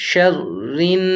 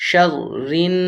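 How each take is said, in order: Both takes have the same delivery.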